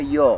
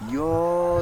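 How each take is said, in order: First: It is said very loudly. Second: It is said very quietly.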